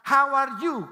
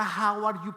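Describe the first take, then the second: First: Loud, high mock learner's "How are you?"; learner's English. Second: "How are you?" said as "jau ar yu", with a Spanish J; spelled-out pronunciation. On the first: Imitating a new immigrant's first loud "How are you?". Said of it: "comenzamos esa". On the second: Shown as a demonstration. Pastor shows the Spanish-spelled "How are you?". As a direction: sound it the way it's written in Spanish. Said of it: "dice con J".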